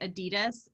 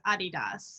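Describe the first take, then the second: First: It is said the usual American way. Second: It follows the founder's original name pronunciation. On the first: This is how people commonly say it in the United States. "in America we say Adidas" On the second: This is the official pronunciation based on the founder's name. "the technical pronunciation is Adidas"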